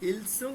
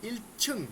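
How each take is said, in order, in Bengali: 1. দ্বিতীয় সিলেবলটি 's' ধ্বনি দিয়ে শুরু হয়। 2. দ্বিতীয় সিলেবলটি 'ch' ধ্বনি দিয়ে শুরু হয়। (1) "ইলসুং না" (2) "ছয় ছ"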